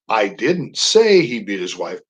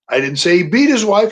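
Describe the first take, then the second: First: The stress falls on the word say. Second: The stress falls on the word beat. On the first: The speaker implied it without saying it. "That's a statement of implication" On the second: He did something milder than beating her. "He was knocking around a little bit"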